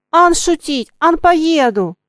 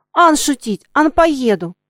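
First: Higher, louder defiant cry; defiant shout. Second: Higher, louder ringing cry; ringing shout. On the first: Girl to the coachman, defiant shout. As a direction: yell it back at him. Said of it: "закричала девочка". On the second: Katka shouting after the coachman. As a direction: shout it clearly after him. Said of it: "звонко кричала Катька". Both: A narrator's reading.

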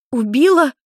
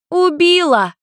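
First: High, louder alarmed question; panicked echo. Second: High, loud gleeful yell; girl calling out from behind the sofa, high and loud; shouted out. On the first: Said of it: "переспросила Майми в панике". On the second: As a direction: blurt it out from hiding. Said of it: "выкрикнула Люся из-за дивана". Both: A narrator's reading.

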